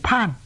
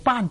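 First: The word begins with an aspirated 'p' sound. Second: The word begins with an unaspirated 'b' sound. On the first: The speaker calls it wrong. "读成嗰个高攀嘅攀字同音" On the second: The speaker calls it right. "有啲人呢唔读做颁"

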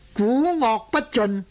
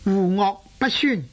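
First: The first syllable begins with a 'g' sound. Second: The first syllable begins with a 'w' sound. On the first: The speaker calls it wrong. "读做古恶不尽" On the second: The speaker calls it right. "亦有咁读嘅"

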